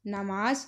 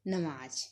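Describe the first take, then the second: First: First नमाज said as naamaaj; double long vowel. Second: नमाज with short first vowel; only the second vowel long in नमाज; Punjabi short vowel. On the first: Teacher showing the incorrect form, long-vowelled नमाज. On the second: Teacher showing the corrected form, shortened नमाज. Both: Shown as a demonstration. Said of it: "आ दी मात्रा दो बार प्रयोग नहीं".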